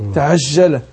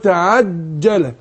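First: The j sound is softened with air like sh. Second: The j sound is a full stop with no air. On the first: The speaker calls it wrong. "ينطقوا كلمه الايه؟ الجيم شين" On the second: The speaker calls it right. "فقول تعجل"

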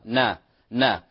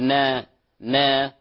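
First: The vowel is a plain, lightly thinned 'a'. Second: The vowel is over-thinned, leaning toward 'e'. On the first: The speaker calls it right. "مرققة نا نا ولا نبالغ في ترقيقها" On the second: The speaker calls it wrong. "لا تصبح فيها إمالة أو نقل أو تقليل عفوا لا نقول نا نا"

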